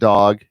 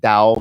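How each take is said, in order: First: The word is said with a standard US accent. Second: The word is said with a Southern US accent.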